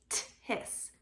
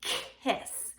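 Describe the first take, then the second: First: "tis" with a front tapped t for k; tappy tis. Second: "kiss" with k made in the throat; throaty kiss. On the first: Teacher showing the wrong tappy version. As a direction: say "tis", tapping a t where k belongs. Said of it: "not making it tappy". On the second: Teacher modelling the right throaty sound. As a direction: start "kiss" from the back of the throat. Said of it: "putting it in your throat". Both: Shown as a demonstration.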